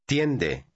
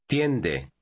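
The two takes are said the same way.

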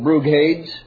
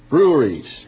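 First: The word is said with a hard g sound. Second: The word is said with no g, like breweries. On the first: The speaker calls it wrong. "any intelligent man would pronounce that Brughades" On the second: The speaker calls it right. "This is the way you pronounce it"

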